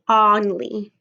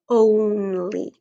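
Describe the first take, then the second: First: The first vowel sounds like the word on. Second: The first vowel sounds like the word own. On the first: The speaker calls it wrong. "I see this word in here that I know, on, but I don't say only" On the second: The speaker calls it right. "I say only"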